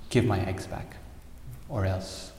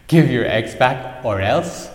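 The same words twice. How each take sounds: First: A restrained, firm demand; understated angry sparrow. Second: Loud, slow, scornful echo of a threat; mocking laughing ocean. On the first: Acted. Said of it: "she got very angry". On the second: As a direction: boom it out in mocking disbelief. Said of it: "started laughing and laughing and said".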